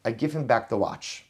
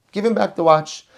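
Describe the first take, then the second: First: Said in the usual way. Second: Higher and louder, stress on "him"; emphatic command. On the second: Shown as a demonstration. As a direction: declare it, leaning on "him". Repeats the solution, then emphasizes.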